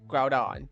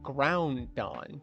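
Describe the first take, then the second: First: No N sound comes before the D. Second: An N sound comes before the D. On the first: The speaker calls it right. "it's Groudon. There's no N" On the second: The speaker calls it wrong. "I always thought it was pronounced Groundon"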